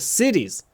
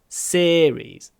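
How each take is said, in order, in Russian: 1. Первый гласный держим коротким. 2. Первый гласный тянем, он долгий. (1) "не series" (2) "Мы тянем э ... такой же звук, когда мы говорим series"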